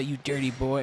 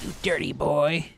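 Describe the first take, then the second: First: Imitating video quote. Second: Slow, loud put-on old teacher voice; old teacher impression. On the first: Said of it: "I'm trying to say". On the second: Quoting the old teacher from a viral video, slow and loud. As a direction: drag out the words like a scolding old man. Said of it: "this guy's like".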